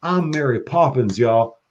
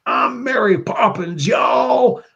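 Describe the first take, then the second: First: Put-on Southern accent. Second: High, slow Southern drawl on I'm Mary Poppins y'all; proud Southern declaration, pitched way up; Southern accent. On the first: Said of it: "Southern accent". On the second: Retold or imitated. Quoting Yondu's movie line in a high Southern drawl. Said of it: "he had the Southern accent".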